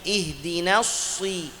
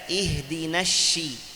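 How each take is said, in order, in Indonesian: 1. Bunyi s diucapkan dengan bibir membulat. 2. Bunyi s diganti dengan bunyi sh. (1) "huruf sad tapi dengan munyung" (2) "ganti huruf sad dengan shin"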